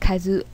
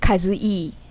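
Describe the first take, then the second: First: The final vowel sounds like 'eh'. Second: The final vowel sounds like 'ee'. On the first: The speaker calls it right. "My name is Kazue" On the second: The speaker calls it wrong. "It's not Kazue"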